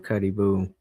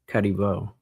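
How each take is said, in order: First: The name ends with an 'oo' vowel. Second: The name ends with an 'oh' vowel. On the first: The speaker calls it wrong. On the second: The speaker calls it right.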